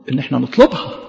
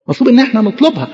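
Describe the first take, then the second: First: Said in the usual way. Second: مطلوب إن إحنا نطلبها higher and quicker, pressed; emphatic restatement. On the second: Shown as a demonstration. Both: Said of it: "repeated with emphasis".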